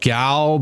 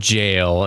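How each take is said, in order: First: The word begins with a hard G sound. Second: The word begins with a soft J sound. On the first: The speaker calls it wrong. "I know it looks like it's pronounced Gal, but no" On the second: The speaker calls it right. "that's actually an old-fashioned uh, British pronunciation of the word jail"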